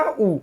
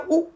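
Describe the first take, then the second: First: उ held out as a long vowel. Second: उ said as a quick short vowel. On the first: Teacher demonstrates the long उ to students. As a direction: draw उ out long. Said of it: "उ वाली sound है वो लंबी रह रही है". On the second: Teacher demonstrates the short उ to students. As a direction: clip उ short. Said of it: "उ वाली साउंड है वो छोटी रह रही है". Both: Shown as a demonstration.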